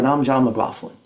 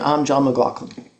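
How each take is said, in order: First: The surname has its American pronunciation. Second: The surname has its non-American pronunciation. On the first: The speaker is in the United States. "John pronounces his name McLaughlin when he's in the United States" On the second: The speaker is outside the United States. "Other places around the world, he might say"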